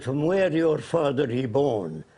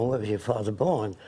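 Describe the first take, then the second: First: Slow, lightly put-on Arab accent; imitated Arab accent. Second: Said in the usual way. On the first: Arab leader asks about the caller's background, imitated Arab accent. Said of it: "He said in his accent". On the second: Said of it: "And that means".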